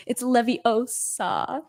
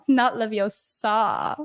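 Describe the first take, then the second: First: Slow, stretched LEVI-O-SA with the right stress; Hermione's correction. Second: Slow Leviosa with the last syllable dragged out, SAAH; drawn-out wrong ending on Leviosa; mimicked mispronunciation. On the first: Retold or imitated. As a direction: spell out Leviosa syllable by syllable, stressing the O. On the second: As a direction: show the wrong LevioSA, leaning on the end. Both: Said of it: "Hermione's like".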